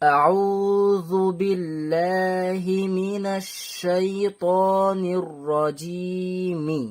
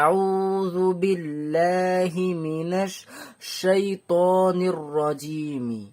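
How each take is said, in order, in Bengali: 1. এটি এক নিঃশ্বাসে বিরতি ছাড়া পড়া হয়। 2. minash শব্দের পরে একটি নিঃশ্বাস নেওয়া হয়। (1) "এই টানা পড়তে হয়" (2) "মিনাশ বলে আমি দম নিয়েছি"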